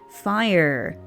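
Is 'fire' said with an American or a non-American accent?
American. Fire is said in an American accent. "said it in a bit more of an American way"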